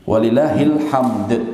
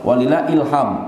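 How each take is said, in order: First: The phrase ends with a clear d sound. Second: The phrase ends without any d sound. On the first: All praise belongs to God. The speaker calls it right. "Belakangnya ada huruf dalnya" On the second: Inspiration belongs to God, which makes no sense here. The speaker calls it wrong. "Orang sering salah"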